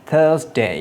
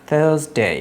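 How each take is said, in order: Both takes have the same delivery.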